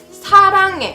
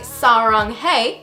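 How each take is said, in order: First: It is said with a more Korean accent. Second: It is said with a less Korean accent.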